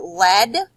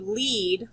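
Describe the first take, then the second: First: "lead" said like led, rhyming with head; short E lead. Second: "lead" said like leed, rhyming with need; long E lead. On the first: Teacher demonstrating a homograph, "lead" rhyming with bread. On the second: Teacher demonstrating a homograph, "lead" said as leed. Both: Shown as a demonstration. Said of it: "it can be pronounced two different ways".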